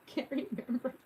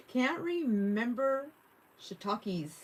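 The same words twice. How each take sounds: First: Said in the usual way. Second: Drawn-out repeat. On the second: Retold or imitated. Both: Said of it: "repeating the chat line".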